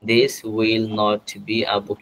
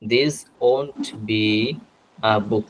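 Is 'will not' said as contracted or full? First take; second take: full; contracted. First: Will not is said as two full words. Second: Will not is shortened to one syllable, won't. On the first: "উইল নট" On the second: "উইল নট না বলে আমরা ওন্ট বলতে পারি"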